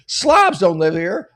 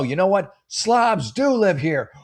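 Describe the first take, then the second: First: A high, loud, slow "Slobs don't live here"; indignant declaration. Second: A high, very slow "Slobs do live here" with weight on "do"; bitter reversal. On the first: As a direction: lay down the law word by word. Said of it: "And she's like". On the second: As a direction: give up in sarcastic defeat. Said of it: "And then she's like, No". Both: Retold or imitated.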